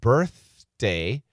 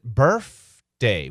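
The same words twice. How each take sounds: First: The middle sound is a 'th' sound. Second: The middle sound is an 'f' sound. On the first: "he doesn't pronounce it birthday, B I R T H" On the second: "He pronounces it birthday with an F instead of a T H"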